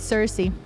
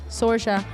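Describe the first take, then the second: First: The name ends with a 'see' sound. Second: The name ends with a 'sha' sound. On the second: "I have always said S- S- Sorsha"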